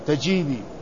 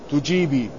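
First: The first syllable has the vowel a. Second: The first syllable has the vowel u. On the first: "وبفتحها" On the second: "بضم التاء"

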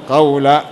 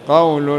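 First: The word ends with a short a vowel. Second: The word ends with a short u vowel. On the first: The word is read in the accusative case. "قراءة حفص وابن عامر قول بالنص" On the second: The word is read in the nominative case. "وقراءة الجمهور من بقية القراء"

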